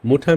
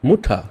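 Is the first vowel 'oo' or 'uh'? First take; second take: oo; oo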